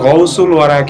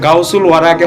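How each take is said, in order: First: The first vowel is an 'ou' sound. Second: The first vowel is an 'au' sound. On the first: The speaker calls it right. "এটা গৌসুল ওয়ারাকে ওয়াস্তে হবে" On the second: The speaker calls it wrong. "এটা গাউসুল ওয়ারাকে হবে না"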